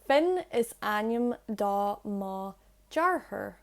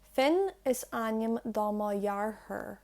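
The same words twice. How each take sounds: First: The last word starts with a hard 'j' sound. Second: The last word starts with a softened sound. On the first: "So that's without lenition" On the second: "With lenition"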